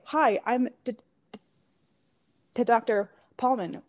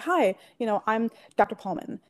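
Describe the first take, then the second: First: The words break up with stuttered repetitions. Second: The words flow smoothly without any repetition. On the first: The speaker calls it wrong. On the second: The speaker calls it right.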